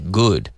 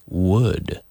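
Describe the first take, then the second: First: The word starts with a hard G sound. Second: The word starts with a rounded W sound. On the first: The speaker calls it wrong. "a lot of people say good" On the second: The speaker calls it right. "but it's would"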